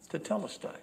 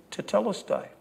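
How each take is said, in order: First: "Tetelestai" repeated softly, falling away; softer tetelestai. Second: "Tetelestai" said firmly with a falling tune; marketplace tetelestai. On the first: Merchant gripping the buyer's wrist, soft final "Tetelestai". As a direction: let the second "Tetelestai" settle quietly. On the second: Merchant to buyer after the last shekel, firm falling "Tetelestai". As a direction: seal the deal with "Tetelestai". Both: Shown as a demonstration. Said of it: "the way that we say it".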